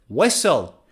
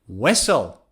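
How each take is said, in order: No difference in how they are said.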